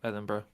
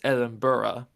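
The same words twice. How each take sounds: First: The name is pronounced in a casual, everyday way. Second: The name is pronounced in a careful, formal way. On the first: This is how most locals actually say it. "most people just go" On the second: This is the proper, official way to say it. "how you're meant to say it properly is"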